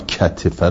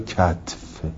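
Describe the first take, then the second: First: The t is followed by a short i vowel. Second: The t is followed directly by the f. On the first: This is the regular form of the word. "کتفه رو" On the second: This avoids three vowels in a row. "کتف میگیم که سه تا حرکت پشت سر هم نباشه"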